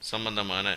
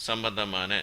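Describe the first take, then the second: Both takes have the same delivery.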